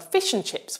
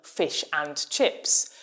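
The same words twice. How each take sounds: First: The word 'and' is reduced and weak. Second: The word 'and' is said in full.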